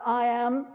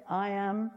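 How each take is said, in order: First: Called out a bit louder. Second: Said in the usual way. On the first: Shown as a demonstration. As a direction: say it louder, congregation. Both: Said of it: "Come on, a bit louder".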